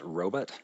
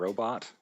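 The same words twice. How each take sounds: First: The word has the older, sixties-style second vowel. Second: The word has the usual modern second vowel. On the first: This is how people said it when robots were new. "when Uhura pronounces it as robot" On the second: This is how people say it today. "instead of"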